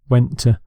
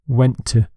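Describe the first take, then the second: First: The two words run together smoothly. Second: The same.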